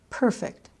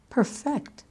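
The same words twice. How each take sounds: First: "Perfect" as PER-fect, the adjective; stress on first syllable. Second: "Perfect" as per-FECT, the verb; stress on second syllable. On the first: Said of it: "accent the first syllable of the noun and the adjective". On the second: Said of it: "the second syllable of the verb". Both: Shown as a demonstration.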